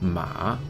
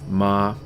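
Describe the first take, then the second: First: The pitch dips low then rises. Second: The pitch stays high and level. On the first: It means horse. "Third tone, the dipping tone" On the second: It means mother. "the first tone is a high flat tone"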